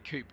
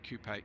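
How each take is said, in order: First: The word is said the American way. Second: The word is said the French way. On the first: "Why do you say coupe" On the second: "instead of coupe? It's a French word with an accent on it"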